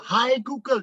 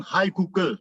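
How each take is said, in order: First: Mock call-out, pitched well up; teriakan tiruan. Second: Said in the usual way. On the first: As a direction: call "Hai Google" higher, as a half-hearted retold yell. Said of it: "Saya teriak". (teriak pura-pura, nada tinggi) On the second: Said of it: "Saya bilang".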